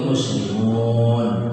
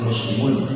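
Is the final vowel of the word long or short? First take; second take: long; short. First: The final vowel is long, ending in n. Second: The final vowel is cut short. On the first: It refers to many Muslims. The speaker calls it right. "Ada waw sama nun ujungnya" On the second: The speaker calls it wrong. "Salah tuh"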